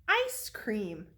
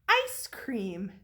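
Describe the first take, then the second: The two takes are said the same way.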